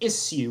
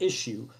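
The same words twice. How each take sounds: First: The word is said in a posh London way. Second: The word is said in a plain, ordinary way. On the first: The speaker sounds upper-class. The speaker calls it wrong. "I've been saying issue ... it makes me sound like a posh London twat" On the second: The speaker sounds ordinary. The speaker calls it right. "instead of issue"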